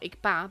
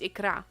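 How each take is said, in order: First: The consonant after the k is a p. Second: The consonant after the k is an r. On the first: The speaker calls it wrong. "it's not Ikpa" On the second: The speaker calls it right. "but it's Ikra"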